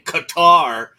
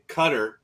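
First: It is said with an anglicized pronunciation. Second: It is said with a native-style pronunciation.

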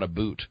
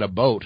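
First: The second vowel sounds like 'oot'. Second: The second vowel sounds like 'oat'. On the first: The speaker calls it wrong. "and not a boot" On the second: The speaker calls it right. "I did it right. I said a boat"

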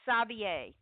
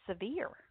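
First: The name sounds like the word savior. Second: The name sounds like the word severe. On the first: This is how the name is actually said. The speaker calls it right. "It's Corey Savier. That's the way the comment" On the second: This is how the speaker long said it. The speaker calls it wrong. "I've always pronounced it Severe"

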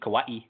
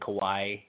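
First: It is said the way local people say it. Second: It is said the way visitors had been saying it. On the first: This is how people who grew up there say it. The speaker calls it right. "That's how we found out that's how you say it" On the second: This is how outsiders had been saying it. The speaker calls it wrong. "The whole time we've been saying Kauai"

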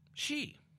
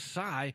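First: The word is said like 'she'. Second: The word is said like 'sigh' or 'psi'. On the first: This is the modern Chinese way of saying it. "In modern China, it's she" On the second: This is the ancient Greek way of saying it. "In Greek, in the ancient Greek, it was psi"

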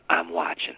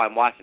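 First: It is said in a menacing, threatening way. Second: It is said lightly and casually. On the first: It is a threat to the kid. "I think you said it like this" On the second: It is a harmless remark. "I don't think you just said, oh, I'm watching"

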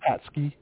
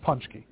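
First: The first syllable sounds like 'pats'. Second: The first syllable sounds like 'punch'. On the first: The speaker calls it wrong. "it's not Patsky" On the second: The speaker calls it right. "Punchki is how it's pronounced"

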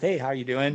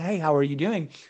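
First: It sounds quick and perfunctory, without real interest. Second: It sounds warm and genuinely caring.

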